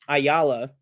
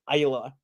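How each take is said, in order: First: The name is pronounced clearly and carefully. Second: The name is slurred and mumbled. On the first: It is how the name should sound. The speaker calls it right. "but it's Hector Ayala" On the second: It imitates how an actor says the name. The speaker calls it wrong. "it comes out a little mush mouth"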